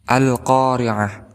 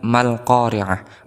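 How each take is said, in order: First: The word starts with a pronounced 'a' vowel. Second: The opening 'a' vowel is dropped and linked over. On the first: The word stands at the start of the phrase. "maka hamzah ini kita harokati dengan fathah" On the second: Another word comes before it. "Maka hamzah wasol ini tidak dibaca"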